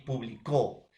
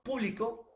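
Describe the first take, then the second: First: "publicó" stressed on final CÓ; stress on last syllable. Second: "público" stressed on PÚ, first syllable. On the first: Teacher showing students how accent changes meaning, "publicó" stressed on final CÓ. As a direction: land hard on the CÓ in "publicó". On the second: Teacher showing students how accent changes meaning, "público" stressed on PÚ. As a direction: punch the PÚ in "público". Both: Shown as a demonstration. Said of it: "Este puede ser el acento".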